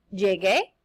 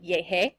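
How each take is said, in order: First: "Llegué" with a hard g; "Llegué", the g kept hard before é. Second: "llegué" with an h sound for the g; "llegué", its g softened to a breath of h; mispronounced soft g. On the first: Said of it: "the U there for the pronunciation". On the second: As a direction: say "llegué" as "yeh-hay". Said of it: "or else it would sound like". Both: Shown as a demonstration.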